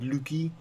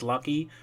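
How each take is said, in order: First: It is said with a Dutch pronunciation. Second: It is said with a plain English pronunciation. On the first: The speaker calls it wrong. "it's a Dutch uh, pronunciation" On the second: The speaker calls it right. "to even pronounce Lucky"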